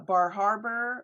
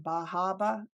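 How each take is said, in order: First: It is said in a standard accent. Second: It is said in a local Maine accent.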